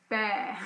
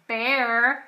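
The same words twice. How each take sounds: First: The final R is dropped, non-rhotic. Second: The final R is pronounced.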